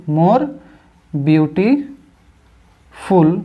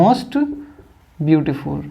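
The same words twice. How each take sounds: First: More rising, then beautiful — "beautiful" drawn out very slowly, syllable by syllable; slow demo. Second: "most" jumps high and rises, "beautiful" drops low; "most" lifted high. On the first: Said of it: "तो हम कहेंगे more beautiful". ("beautiful" को बहुत धीरे खींचकर बोलें) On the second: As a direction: pitch "most" high, then fall away on "beautiful". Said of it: "क्या कहेंगे?". ("most" ऊँचे सुर में, "beautiful" नीचे गिरता हुआ) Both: Shown as a demonstration.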